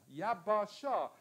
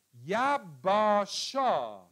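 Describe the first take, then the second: First: Said in the usual way. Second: Yabasha stretched out slowly, syllable by syllable, loud; drawn-out pronunciation. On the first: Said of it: "repeat of the word". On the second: Shown as a demonstration. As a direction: spell out Yabasha slowly for the class. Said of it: "word said twice".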